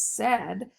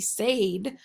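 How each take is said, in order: First: The vowel is a short E sound. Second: The vowel is a long A sound. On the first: The speaker calls it right. "it's really just the short E sound that said makes" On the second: The speaker calls it wrong. "the first vowel would say A, so it should be said"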